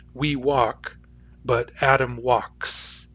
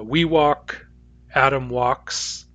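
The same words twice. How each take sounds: First: Slow "Adam walks" with the final S sounded clearly; stress on the S ending. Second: "walks" said slowly with the final S held clear; stress on the S ending. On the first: Teacher asking students to hear the S, slow and clear. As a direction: lean on the S of "walks" after a plain "We walk". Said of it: "Do you hear that S?". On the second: Teacher showing students the S ending, slow and clear. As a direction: draw out "we walk, Adam walks" so the S of "walks" stands out. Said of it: "the verb ends in an S". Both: Shown as a demonstration.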